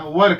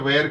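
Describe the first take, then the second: First: The vowel sounds like 'er'. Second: The vowel sounds like 'air'. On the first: The speaker calls it right. "वर कहना।" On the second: The speaker calls it wrong. "हम लोग बचपन से वेयर वेयर वेयर करते आए हैं, but हमें इसको वेयर नहीं कहना"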